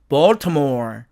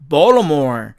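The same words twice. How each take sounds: First: The t sound after the l is pronounced. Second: The t sound after the l is dropped. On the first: "사전식 발음은 Baltimore" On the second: "트가 사라져서"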